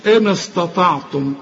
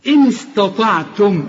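First: "إن استطعتم" with thick, dark s and t; mistaken heavy s. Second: Slow "إن استطعتم" with thin s and t; light, clear s. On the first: Teacher mimicking the student's mistake, heavy s. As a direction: darken the whole of "استطعتم". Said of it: "ما تقوليش". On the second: Teacher modelling for a student, light clear s. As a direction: keep "است" light, only the ط heavy. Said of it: "تقولها زي ما أنا قلتها". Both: Shown as a demonstration.

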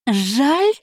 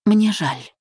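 First: High, rising scoffing "Жаль?"; incredulous grumble. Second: Calm regret. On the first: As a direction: throw "Жаль?" back in disbelief, pitch shooting up. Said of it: "буркнула та". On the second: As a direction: say "Мне жаль" simply and calmly, no edge. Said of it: "спокойно произнесла". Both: Acted.

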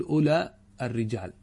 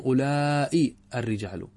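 First: أولى with its vowel kept brief, as Tamim say it; the Tamimi أولى, short and quick; Tamimi short form. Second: أولئي lengthened, the Hijazi way; المد في أولئي ببطء; Hijazi long form. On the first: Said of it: "على لغة تميم". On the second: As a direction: stretch أولئي with a long drawn vowel, slowly. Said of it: "والحجازيون يمدون". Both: Shown as a demonstration.

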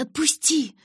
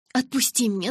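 First: Shout. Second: Yelling. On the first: Bella to Edward carrying her, yelling to let go. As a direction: pitch leaps high, loud cry of отпусти. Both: A narrator's reading. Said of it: "закричала я".

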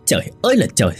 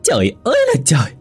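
First: Restrained angry growl from the son; acted roar without much volume; exasperated roar. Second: High, quick exasperated wail; acted high-pitched angry outcry; screeching outrage. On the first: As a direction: growl it out, fed up. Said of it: "Kha gầm lên". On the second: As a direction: screech it like a fed-up wife. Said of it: "Mụ Hoa gào lên". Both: A narrator's reading.

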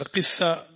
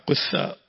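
First: قثاء with a short i after the qaf; kasra on the qaf. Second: قثاء with a short u after the qaf; damma on the qaf. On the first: Teacher showing students the commoner form, قثاء with i on the qaf. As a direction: say قثاء as "qiththa", i in the first syllable. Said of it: "الكسر أشهر". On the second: Teacher showing students the variant reading, قثاء with u on the qaf. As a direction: say قثاء as "quththa", u in the first syllable. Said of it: "وقد تضم قافه". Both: Shown as a demonstration.

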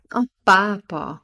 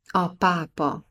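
First: Lassan, hangosan, gúnyosan felkiáltva; csodálkozó, lassú felkiáltás. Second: Said in the usual way. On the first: A narrator's reading. (a kurátor felesége gúnyosan felkiált, lassan és hangosan) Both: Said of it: "kiáltotta a kurátor felesége".

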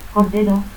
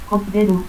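First: Said in the usual way. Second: Cordero as "cotderu". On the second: Shown as a demonstration. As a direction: stop for the first R of Cordero, final u. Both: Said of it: "confusión de R y T al final de sílaba".

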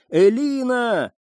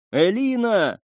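First: High, slow, drawn-out call; desperate call. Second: Calling out. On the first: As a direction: stretch the name out, calling into the woods. Searching, calling her name. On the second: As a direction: call out for her through the smoke. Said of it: "позвал он". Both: A narrator's reading.

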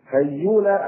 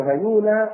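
First: هيولى with a doubled, held y. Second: هيولى with a single y; light ya. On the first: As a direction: say هيولى as hay-yuula. (هيولى بتشديد الياء) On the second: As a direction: say هيولى as ha-yuula, without doubling. (هيولى بتخفيف الياء) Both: Shown as a demonstration. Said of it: "بضم الياء مخففة أو مشددة".

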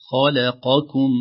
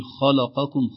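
First: خلقكم with heavy خ, light ل, then heavy ق; heavy, light, heavy across خلقكم. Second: خلقكم with the ل made heavy like the letters around it; thin lam mistake. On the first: Teacher showing the correct pattern. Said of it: "نفخم ثم نرقق ثم نفخم". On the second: Teacher demonstrating the wrong heavy ل. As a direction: let the ل in خلقكم go dark by mistake. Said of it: "لو لم ننتبه نقول". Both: Shown as a demonstration.

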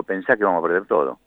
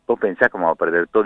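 First: "vamos a perder todo" as a statement, falling on TODO; retold firm answer, "todo" dropping at the end; respuesta citada. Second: "vamos a perder todo" as a quick question, rising on TODO; retold question, lifting the end of "todo"; pregunta citada. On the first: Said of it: "y digo". ("todo" afirmado, bajando al final) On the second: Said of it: "ayer Rebeca me decía". ("todo" en tono de pregunta, subiendo al final)

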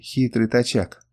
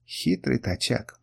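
First: Slow, musing remark at normal volume; said to oneself. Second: Slow, soft near-whisper. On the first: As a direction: say it slowly to yourself, reflecting. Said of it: "сказал я сам себе". (медленно, про себя) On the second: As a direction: murmur it slowly under the breath. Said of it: "прошептал он". (медленным тихим шёпотом) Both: A narrator's reading.

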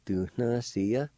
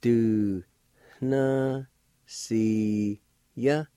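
First: Said in the usual way. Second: Very slow, long held syllables; teacher sounding a word out slowly. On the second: Shown as a demonstration. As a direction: stretch each syllable out with long pauses between. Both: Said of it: "it's pronounced like this".

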